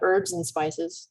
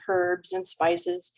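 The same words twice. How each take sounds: First: Herbs begins with a vowel, no h. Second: Herbs begins with an audible h sound. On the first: This is the usual American way. "the Americans drop the H oftentimes" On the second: This is the usual British way. "just like they say herbs and spices"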